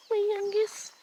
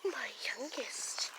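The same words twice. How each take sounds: First: Said in the usual way. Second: Slow, soft unvoiced whisper. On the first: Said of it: "My youngest (repeated)". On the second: Shown as a demonstration. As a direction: whisper it lovingly, slowly.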